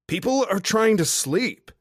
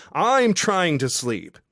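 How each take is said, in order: First: Sharp, loud, pitched-up hiss of a yell down to the street; annoyed yell. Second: I'm punched hard, the rest slow and loud; stress on I'M. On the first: Woman yelling from her hotel window at a drunk guy, annoyed. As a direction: shut him up without waking the hotel. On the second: Woman at her window telling the drunk guy she is trying to sleep, slow with I'm stressed. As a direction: lean on "I'm" and drag the line out slowly. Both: Acted.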